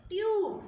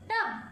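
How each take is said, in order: First: "ट्यूब" with a long "yoo" vowel; long U sound. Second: "टब" with short "uh"; short U sound. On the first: Teacher contrasts words without and with E, long sound. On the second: Teacher contrasts words without and with E, short sound. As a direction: keep the vowel brief in "टब". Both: Shown as a demonstration. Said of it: "how the sound changes by adding E".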